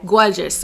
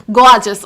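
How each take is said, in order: First: Said in the usual way. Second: "Gorgeous" in an accent, punched out loud; accidental put-on accent. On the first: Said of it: "I said it in that accent". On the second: Real, not acted. Praising a politician's wife, "Gorgeous" in a put-on accent. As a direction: say "Gorgeous" loudly in an affected accent. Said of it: "said it in that accent".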